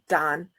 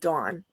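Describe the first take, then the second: First: It is said with a hard O vowel. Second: It is said with a Utah-style vowel. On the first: "certain areas left it like that hard O" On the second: "in Utah they're like"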